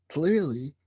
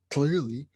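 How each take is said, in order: Both takes have the same delivery.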